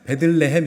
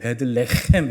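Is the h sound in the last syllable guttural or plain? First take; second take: plain; guttural. First: The last syllable has a plain, light h sound. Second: The last syllable has a deep, throaty h sound. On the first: The speaker calls it wrong. "베들레헴 이렇게 하시면 안 되고" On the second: The speaker calls it right. "베들레헴 이렇게 하셔야 돼요. 그 원래 히브리어가 그렇습니다"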